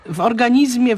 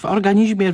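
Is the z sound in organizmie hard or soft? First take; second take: hard; soft. First: The z before -mie is said hard. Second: The z before -mie is said soft. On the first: This is the more careful pronunciation. "w organizmie, w romantyzmie jest bardziej staranne" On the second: This is the less careful pronunciation. "niż w organizmie"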